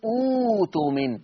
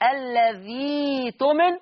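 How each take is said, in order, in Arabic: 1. تبدأ الكلمة بصوت oo طويل. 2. تُستبدل الهمزة بصوت ee. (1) "ولما ابتدي اقول اوتومن" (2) "لو وصلتهم"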